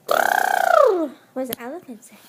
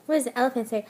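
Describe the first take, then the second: First: Put-on asked again much louder to prompt the baby; louder coaxing. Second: Said in the usual way. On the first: Shown as a demonstration. Mother loudly prompting her baby to make the elephant sound. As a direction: call it out to get the baby going. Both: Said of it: "can you do your elephant sound".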